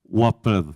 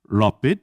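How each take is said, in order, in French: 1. Le mot commence par un son W. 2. Le mot commence par un L vélaire sombre. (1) "la forme ombrienne se prononce waped" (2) "avec un L vélaire"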